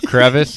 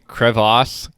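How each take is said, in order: First: It ends with an unstressed 'iss' sound. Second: It ends with a stressed 'ass' sound. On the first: The speaker calls it right. "instead of crevice" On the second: The speaker calls it wrong. "people saying crevasse instead of crevice"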